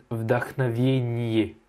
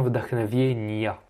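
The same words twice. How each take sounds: First: Slow "вдохновение" with a final e ending; student's wrong ending. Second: "вдохновения" ending in ya; correct ending. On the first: Teacher slowly imitates the student's wrong ending. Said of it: "Tu as dit v". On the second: Teacher gives the correct ya ending. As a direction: finish "вдохновения" on ya. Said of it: "c'est bien вдохновения". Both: Shown as a demonstration.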